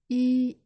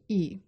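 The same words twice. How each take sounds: First: The pitch stays high and level. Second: The pitch falls sharply from high.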